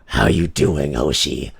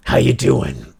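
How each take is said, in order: First: Much lower, deeper voice; low-pitched greeting without the mobster accent; dropping the accent. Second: Mock Italian-American "how you doing"; put-on Italian-American accent; stuck mobster accent. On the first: Shown as a demonstration. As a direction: reset to a deep male register. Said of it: "I gotta get out of this". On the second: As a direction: say it like a New York mobster. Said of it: "get out of this fucking accent".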